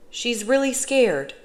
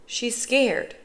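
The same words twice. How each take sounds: First: Slower, "really" pitched high; stress on really. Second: Said in the usual way. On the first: A narrator's reading. Boy insists to his father, high stretched stress on "really".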